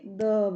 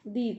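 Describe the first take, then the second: First: It ends in a short 'uh' vowel. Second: It ends in a long 'ee' vowel. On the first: The next word starts with a consonant sound. "दी नहीं बोलेंगे, द बोलेंगे" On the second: The next word starts with a vowel sound. "इसे हम दी बोलेंगे"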